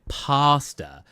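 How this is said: The first vowel sounds like the one in par. "they say pasta, which makes it sound like there's an R in it"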